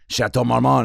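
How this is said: It is said in an exaggerated French accent.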